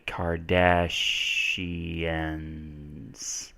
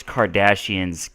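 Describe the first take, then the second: First: "Kardashians" stretched very slowly, syllable by syllable; sounding out slowly. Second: Said in the usual way. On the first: Shown as a demonstration. Teacher spelling for viewers, slowly sounding out "Kardashians". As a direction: draw out "Kardashians" softly as if writing it.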